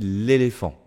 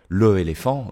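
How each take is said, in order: First: The article's vowel is dropped and joined on. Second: The article's vowel is kept before the noun. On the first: The speaker calls it right. "je dis" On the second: The speaker calls it wrong.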